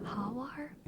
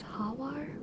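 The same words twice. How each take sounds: First: It is pronounced the Spanish way. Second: The same.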